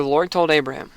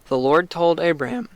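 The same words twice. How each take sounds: First: Said in the usual way. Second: Voice cracking. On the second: Real, not acted. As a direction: voice breaks on the words. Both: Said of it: "I'm having bad cracks today".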